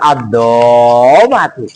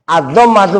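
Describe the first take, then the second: First: A vowel is stretched out long. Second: The vowels are kept short. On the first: The speaker calls it wrong. "bukan ... Lo ngapa suka manjang-manjang?" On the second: The speaker calls it right.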